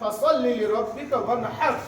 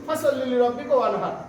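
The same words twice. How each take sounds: First: The h in wanhar is a strong throaty h. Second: The h in wanhar is a light breathy h. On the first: The speaker calls it right. "কেউ বলি না" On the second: The speaker calls it wrong. "আমরা ম্যাক্সিমাম মানুষ এটাই পড়ি"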